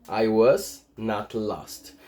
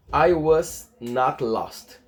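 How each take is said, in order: First: Slow repeat of I was not lost, lower; teacher repeating the model. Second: Slow, careful I was not lost; teacher's slow read of the example; slow model sentence. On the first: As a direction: say it again slowly and lower for students. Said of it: "demo repeat". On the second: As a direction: read it slowly for students. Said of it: "separei alguns exemplos". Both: Shown as a demonstration.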